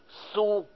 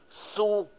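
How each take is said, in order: First: The syllable is long, with a level tone. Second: The same.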